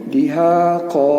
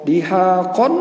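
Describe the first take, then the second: First: The word ends with a long o vowel. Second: The word ends with an n sound. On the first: The reader stops at this word. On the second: The reading continues without a stop.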